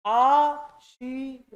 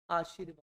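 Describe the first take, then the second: First: "आशीर्वाद" stretched out slowly, र before व; slow model pronunciation. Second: Said in the usual way. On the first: Shown as a demonstration. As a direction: draw out "आशीर्वाद" for the class. ("आशीर्वाद" धीमा, साफ़ उच्चारण) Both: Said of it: "अब ये, इसको देखो".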